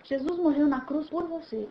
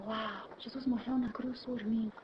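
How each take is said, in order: First: Said in the usual way. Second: Much softer, slow awed murmur; soft slow wonder; hushed awe. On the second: Acted. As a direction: breathe it out in amazement. Awed personal realization.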